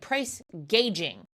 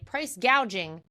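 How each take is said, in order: First: The second word's first vowel sounds like 'gauge'. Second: The second word's first vowel sounds like 'gouge'. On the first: The speaker calls it wrong. "mispronounced price gouging and said price gauging" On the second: The speaker calls it right. "she was supposed to say price gouging"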